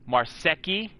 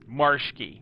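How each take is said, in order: First: The name is said with a Japanese-like sound. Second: The name is said without a Japanese-like sound. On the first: Other people say it this way. The speaker calls it wrong. "which makes it sound like like from like from from Japan or something" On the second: This is the family's own pronunciation. The speaker calls it right. "my full name is [name]"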